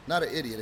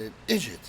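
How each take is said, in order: First: Said in the usual way. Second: "idiot" said as two syllables, ID-jit; Southern "idjit". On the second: Shown as a demonstration. Correcting how his friend said it, "idiot" as "idjit". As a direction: turn the "di" in "idiot" into a j.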